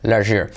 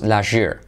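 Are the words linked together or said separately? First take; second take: linked; linked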